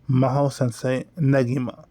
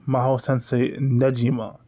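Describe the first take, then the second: First: The G in Negima is hard. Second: The G in Negima is soft. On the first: The speaker calls it right. "But I obviously don't pronounce it that way" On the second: The speaker calls it wrong. "I always say ... which is incorrect"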